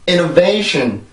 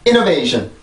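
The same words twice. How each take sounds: First: A main stress and a secondary stress create rhythm. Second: Stress falls only at the start, then drops flat. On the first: The speaker calls it right. "강세가 여기가 있고 여기에는 이 차 강세가 있어요" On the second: The speaker calls it wrong. "쭉 그냥 강세만 처음에 주고 쭉 떨어뜨리는 경우가 많은데"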